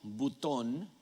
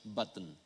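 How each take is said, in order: First: It is pronounced the way a Spanish speaker would. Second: It is pronounced the way English speakers do. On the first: The speaker calls it wrong. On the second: The speaker calls it right.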